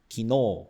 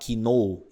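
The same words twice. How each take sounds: First: The final vowel is lengthened. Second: The final vowel is short. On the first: The speaker calls it right. "Veja que tem um prolongamento" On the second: The speaker calls it wrong. "você não vai falar kino"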